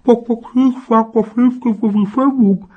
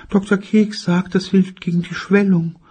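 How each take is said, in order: First: High, loud, garbled mumble; ice in mouth. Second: Mother voice. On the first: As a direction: talk through a mouthful of ice. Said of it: "weil sie einen berühmter generalsförmigen Eiswürfel im Mund hatte". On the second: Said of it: "In Wirklichkeit sagte sie, weil sie einen ... Eiswürfel im Mund hatte". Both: Acted.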